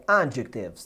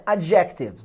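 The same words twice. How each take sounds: First: Adjectives stressed on the first syllable, AD-jec-tives; correct stress. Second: Adjectives wrongly stressed on the second syllable, ad-JEC-tives; misplaced stress. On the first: Teacher corrects the mistake for students, adjectives stressed as AD-jectives. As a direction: hit the AD of adjectives, let the rest fall away. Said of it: "não, é adjectives". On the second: Teacher shows students the mistake, adjectives stressed as ad-JEC-tives. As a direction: shift the beat in adjectives onto JEC. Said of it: "Não é adjectives". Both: Shown as a demonstration.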